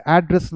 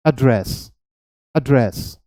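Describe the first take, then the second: First: एड्रेस stressed on the first syllable, AD-dress; noun address. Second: एड्रेस stressed on the second syllable, ad-DRESS; verb address. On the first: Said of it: "हम इसे एड्रेस नहीं बोलेंगे". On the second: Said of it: "हम इसे हमेशा बोलेंगे एड्रेस". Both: Shown as a demonstration.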